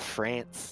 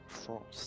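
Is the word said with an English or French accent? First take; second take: English; French. First: It is said with an English pronunciation. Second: It is said with a French pronunciation. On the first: The speaker calls it wrong. "too um, English" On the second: The speaker calls it right. "France is the right way to pronounce it"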